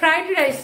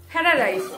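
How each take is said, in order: First: The first word is said as 'fried'. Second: The first word is said as 'fyara'. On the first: "ফ্রাইড rice না" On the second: "আমরা বলি"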